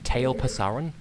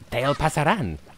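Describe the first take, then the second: First: The name is said with an American English pronunciation. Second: The name is said with a Castilian Spanish pronunciation. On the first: "I've heard Americans pronounce their name" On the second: "as someone who has studied the Castilian Spanish language"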